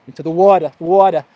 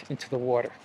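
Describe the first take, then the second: First: "water" said the New York way, ending in an open vowel; New York accent. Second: Said in the usual way. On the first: Real, not acted. Vlogger heading into the sea, New York accent slipping out. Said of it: "That's my New York accent coming through". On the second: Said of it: "That's my New York accent".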